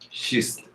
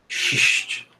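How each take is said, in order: First: It is said in a Gaúcho-like accent. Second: It is said in a hissing Carioca accent.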